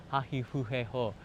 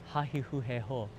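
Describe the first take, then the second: Both takes have the same delivery.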